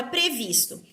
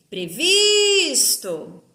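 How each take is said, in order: First: Said in the usual way. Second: "Previsto" with VIS stretched long and loud; stressed syllable called out. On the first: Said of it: "palavra previsto". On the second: Shown as a demonstration. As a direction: call out "Previsto" like a name, holding the VIS. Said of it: "Eu chamo a palavrinha como se".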